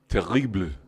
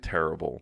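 First: It is said in Parisian French, sounding the final E. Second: It is said with an English pronunciation. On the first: "like Paris, you might hear more like terrible. You'd even hear the E" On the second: "like in English, we would say terrible"

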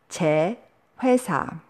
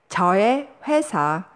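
First: The first word is contracted to one syllable. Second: The first word is two full syllables. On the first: "저 plus 의 becomes 제"

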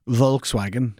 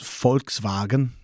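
First: It is said with an English pronunciation. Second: It is said with a German pronunciation. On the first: "in English is pronounced" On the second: "in Germany"

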